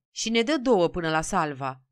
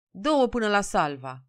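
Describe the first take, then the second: First: A mildly urgent request; insistent pleading. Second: Slightly raised voice, mildly meek request; subdued request. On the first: Peasant calling over the crowd for tickets, insistent pleading. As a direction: press politely for tickets, with some insistence. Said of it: "stărui Nicolae Tabără". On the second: Peasant finally reaching the ticket window, mildly subdued request. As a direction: ask for tickets with only a touch of weariness. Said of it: "zise Nicolae plăștit". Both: A narrator's reading.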